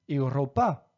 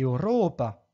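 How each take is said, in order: First: The stress is not on the next-to-last syllable. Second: The stress is on the next-to-last syllable. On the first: The speaker calls it wrong. "Je ne dis pas ... Europa" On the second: The speaker calls it right. "mais bien ... Europa"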